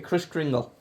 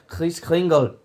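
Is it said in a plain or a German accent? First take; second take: plain; German. First: It is said in the speaker's plain accent. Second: It is said in a German accent.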